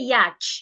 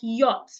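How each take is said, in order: First: The CH sound is pronounced. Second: The CH sound is silent. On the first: The speaker calls it wrong. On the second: The speaker calls it right.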